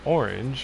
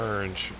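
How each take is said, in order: First: It is said in a careful, formal way. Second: It is said with a casual slang pronunciation. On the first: "I don't know why I pronounced it that way. trying to be proper"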